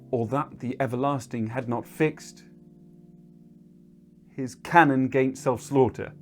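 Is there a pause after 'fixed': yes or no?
yes. It breaks with a pause after fixed.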